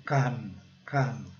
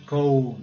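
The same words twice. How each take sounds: First: "come" with a short open uh, like "kum"; short, falling "come", no OH sound; correct "come". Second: "come" said with a long o, like "comb"; "come" with an OH vowel; wrong rule-based "come". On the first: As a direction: say "come" with the vowel of "cup". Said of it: "mas não é. É come". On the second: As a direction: say "come" to rhyme with "home". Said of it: "se fosse seguir a regra também seria". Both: Shown as a demonstration.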